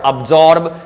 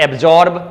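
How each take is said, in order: First: "absorb" as ub-ZAWB, silent r; slow "absorb" with weak start, no r; correct pronunciation. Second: "absorb" as AYB-zorb, with sounded r; wrong pronunciation. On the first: Teacher correcting for learners, "absorb" as ub-ZAWB. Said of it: "is absorb". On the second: Teacher showing learners the mistake, "absorb" as ayb-ZORB. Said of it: "not absorb". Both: Shown as a demonstration.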